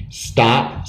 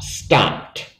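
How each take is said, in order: First: Said in the usual way. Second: Stopped ending in a voiceless pt, softly. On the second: Shown as a demonstration. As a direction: finish stopped on a quiet t. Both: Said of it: "so E D sounds like t".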